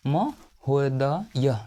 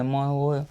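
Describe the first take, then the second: First: Slow dictation. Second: Said in the usual way. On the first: Shown as a demonstration. Teacher dictating महोदय to students, very slow. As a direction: stretch महोदय out syllable by syllable, very slow. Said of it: "teacher spells word for students".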